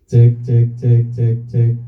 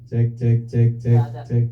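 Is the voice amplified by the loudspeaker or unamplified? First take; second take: amplified; unamplified. First: The voice is heard loudly through the loudspeaker. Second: The voice is heard without loudspeaker amplification. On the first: "Gedein. ... Jelas?" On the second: "Matiin sekarang. ... Nggak ada"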